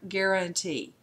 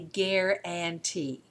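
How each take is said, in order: First: The unstressed vowel is reduced to uh. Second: The unstressed vowel is said fully, as written. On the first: "the uh sound" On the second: "say it the way it looks"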